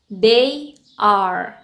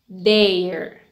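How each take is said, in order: First: It is said as two full words. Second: It is said as one contracted syllable.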